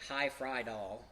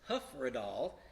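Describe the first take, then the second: First: The first syllable sounds like 'high'. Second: The first syllable sounds like 'huh'. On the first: The speaker calls it wrong. "that's commonly mispronounced. It looks like High Frydal" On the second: The speaker calls it right. "the hymn tune is Hufredal"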